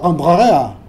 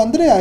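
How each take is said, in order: First: "Andrea" begun with a rough throaty catch, slow and louder; guttural Andrea. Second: "Andrea" with a smooth, soft open A, no catch. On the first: Teacher showing how not to say the name, throaty. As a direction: choke the opening A of "Andrea" in the throat. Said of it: "no digo Andrea". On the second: Teacher giving the correct soft pronunciation of the name. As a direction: glide into "Andrea" gently, no throat. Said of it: "digo Andrea". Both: Shown as a demonstration.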